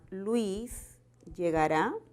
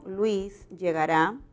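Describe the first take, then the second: First: The voice rises at the end. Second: The voice falls at the end. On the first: It is a question. "si hacemos de esto una pregunta" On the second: It is a statement. "el tono final es descendente"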